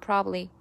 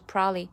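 First: The word is said with a swallowed middle sound. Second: The word is squeezed down even further. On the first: "它直接弱化成了probably" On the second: "或者甚至是probably"

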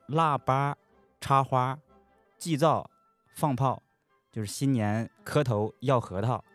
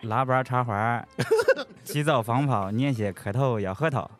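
First: It is said in standard Mandarin. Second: It is said in Henan dialect.

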